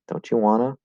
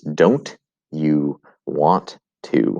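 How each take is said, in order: First: The words merge, with want to becoming wanna. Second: Each word is said separately and fully. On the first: "will most likely pronounce this as don't you wanna" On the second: "The words don't you want to"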